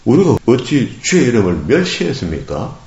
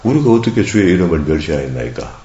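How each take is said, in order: First: It is said in a defiant, challenging tone. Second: It is read in a plain, neutral tone.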